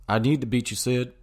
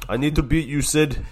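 First: Lightly voiced drawling Texan dad; Hank Hill voice. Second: Higher, louder determined vow; Ovechkin taunt. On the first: Friend repeats Ovechkin's line as a mild Hank Hill. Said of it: "don't know why I just turned into". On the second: Retold or imitated. Ovechkin vowing to beat Crosby, higher and louder. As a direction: push the line at Sid. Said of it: "Even Ovechkin was like".

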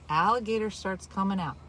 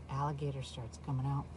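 First: Said in the usual way. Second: Dropped to a near hush, much softer; hushed suspense. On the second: Real, not acted. Host hushing the big moment for listeners, much softer. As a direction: lean in and hush the reveal. Hushed build-up to alligator reveal.

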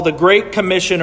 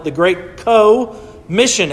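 First: Said in the usual way. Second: "Co-Mission" broken in two, CO stretched out slowly; split word emphasis. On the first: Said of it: "we might call it". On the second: Shown as a demonstration. Preacher recasts the Great Commission as shared work, "Co-Mission" split with a drawn-out CO. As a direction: lean long on the CO of "Co-Mission", then pause before "Mission". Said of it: "or we might call it".

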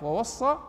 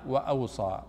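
First: "ووصى" as wa-was-saa, high and rising; variant with waw. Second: "وأوصى" as wa-aw-saa, low and falling; variant with alif. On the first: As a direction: say "ووصى" with a doubled s, pitched up. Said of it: "تجد في بعض المصاحف". («ووصى» بصاد مشددة ونبرة صاعدة) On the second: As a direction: say "وأوصى" with aw, single s, dropping. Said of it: "وفي بعضها". («وأوصى» بصاد مخففة ونبرة هابطة) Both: Shown as a demonstration.

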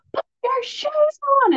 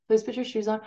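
First: Shrill high mock yell at the kids. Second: Said in the usual way. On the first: Mother yelling at kids to put shoes on, mock yell. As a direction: lose it over the shoes. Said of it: "I said it three times and they didn't do it and I lost it". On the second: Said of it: "I was like".

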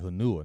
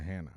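First: Hanua, in three syllables ending in "-nua"; misread name. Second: Hanau, in two syllables ending in "-now"; correct place name. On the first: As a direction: say "Hanua" as huh-NOO-uh. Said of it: "not Hanau". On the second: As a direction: say "Hanau" as HAN-ow. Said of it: "I thought it said Hanua". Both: Retold or imitated.

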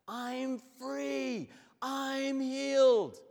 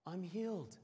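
First: Much higher and much louder, slow exultant cry; joyful shout. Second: Higher, a touch of wonder; amazed discovery. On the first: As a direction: shout it out, freed at last. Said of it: "Now he shouts". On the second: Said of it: "looks at himself and says". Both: Retold or imitated.

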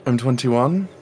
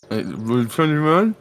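First: Talking through a mouthful of pancake; words muffled by food in the mouth; mouth full. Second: Slow, puzzled repeat with mouth full. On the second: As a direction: chew and echo the number back. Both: Acted. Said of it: "Don't talk with your mouth full".

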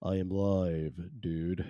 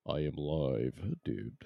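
First: Said in the usual way. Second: Softer and slower, drawn out; quiet, slow repeat. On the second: Shown as a demonstration. Host repeating he is live, now hushed and slow. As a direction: say it again, hushed and unhurried.

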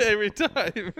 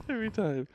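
First: Laughing through the words. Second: Said in the usual way. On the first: Real, not acted. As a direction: giggle it out. Laughing at the shadow.

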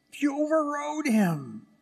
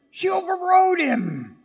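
First: Said in the usual way. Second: High, loud shouted point. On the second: Real, not acted. Preacher shouts the climax to his congregation. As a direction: shout it out to the church.

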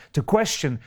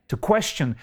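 No difference in how they are said.

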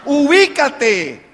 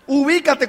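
First: Very slow, stretched-out admonition; exasperated, drawn-out. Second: Said in the usual way. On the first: Real, not acted. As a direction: drag the word out in exasperation. Exasperated call to wake up. (regaño exasperado, alargando la palabra)

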